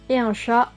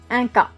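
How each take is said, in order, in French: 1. Le mot commence par un son 'sh'. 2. Le mot commence par un son 'k'. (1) "Le son che va se dire que" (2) "va se dire que"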